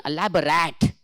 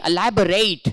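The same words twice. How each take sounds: First: "elaborate" said as e-LAB-o-RAT; mistaken pronunciation. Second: "elaborate" said as e-LAB-o-RATE; correct pronunciation. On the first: Teacher showing the internet's mistake, mistaken pronunciation. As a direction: end "elaborate" on a short A, like rat. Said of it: "but the mistake is clearly evident". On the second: Teacher repeating the example for the class, correct pronunciation. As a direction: end "elaborate" on a long AY, like rate. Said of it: "See, again". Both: Shown as a demonstration.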